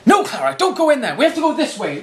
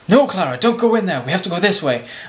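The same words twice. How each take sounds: First: It is acted out with lively energy. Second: It is read flatly, with little energy.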